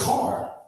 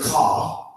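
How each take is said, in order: First: The final r sound is pronounced. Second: The final r sound is dropped. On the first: It follows how the word is spelled. "because that's how it sounded out" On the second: It is how the local community says it. "you don't say ... C A H"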